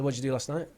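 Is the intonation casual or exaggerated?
casual. The intonation is relaxed and casual, like everyday speech. The speaker calls it right. "You didn't use the correct intonation"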